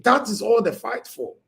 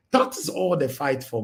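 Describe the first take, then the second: First: Higher, punchy declaration; emphatic outburst. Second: Said in the usual way. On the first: Real, not acted. To my people, the emphatic first take. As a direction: hit it hard and high.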